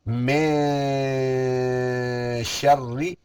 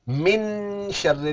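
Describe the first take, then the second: First: The n is hidden in a nasal sound. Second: The n is pronounced clearly with the tongue. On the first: The speaker calls it right. "नाक में आवाज चले जाएगी" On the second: The speaker calls it wrong. "नहीं पढ़ेंगे"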